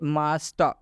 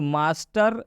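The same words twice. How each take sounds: First: The final r sound is dropped. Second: The final r sound is pronounced. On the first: The speaker calls it right. "इसलिए इस आर का उच्चारण अ से किया जाएगा।" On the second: The speaker calls it wrong. "हम लोग मास्टर नहीं कहेंगे"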